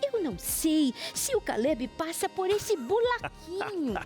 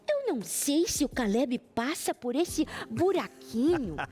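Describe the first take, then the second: First: The r in buraquinho sounds like an l. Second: The r in buraquinho sounds like an r. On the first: "uma criança que eu sou, eu dizia, ... Aí é meio cebolinha" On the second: "diz assim"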